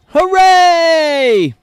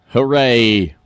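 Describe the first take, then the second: First: High, loud, drawn-out hooray; hammed-up celebration, pitched way up; over-the-top mock cheer. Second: Unenthusiastic, understated hooray; deadpan cheer. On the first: Host on America setting a new record, over-the-top mock cheer. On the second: Pretend. Host back to the political chaos, deadpan mock cheer. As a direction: cheer with no lift at all. Sarcastic cheer before bad news.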